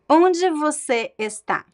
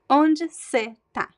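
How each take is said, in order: First: The verb is said in full as está. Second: The verb is shortened to tá. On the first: "So standard pronunciation" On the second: "And the reduced"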